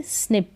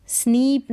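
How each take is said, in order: First: स्निप with a short "i", as in "sit". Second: स्नीप with a long "ee"; स्नीप misread with a long, higher-pitched "ee"; wrong pronunciation. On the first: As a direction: keep the vowel of स्निप brief and lax. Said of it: "आई को ई पढ़ेंगे, छोटी ई के रूप में". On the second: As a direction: stretch the vowel of स्नीप, like "sneep". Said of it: "स्नीप नहीं पढ़ेंगे". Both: Shown as a demonstration.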